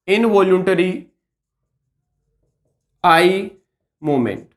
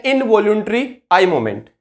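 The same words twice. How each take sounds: First: Slow, separated words with pauses between; slow dictation. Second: Said in the usual way. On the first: Shown as a demonstration. Teacher repeating a medical term for students, slow dictation. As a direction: spell out "involuntary ... I ... movement" word by word, dropping on "movement".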